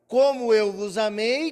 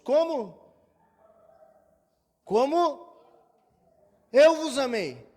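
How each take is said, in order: First: 'Como' runs straight into the phrase without a break. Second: 'Como' is asked as a question, then a pause.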